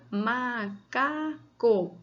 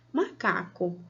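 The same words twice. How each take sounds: First: "macaco" very slow, in three long syllables. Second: Said in the usual way. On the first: Shown as a demonstration. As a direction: draw out ma, ca, co in "macaco". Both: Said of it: "Cada vez que você fala um som".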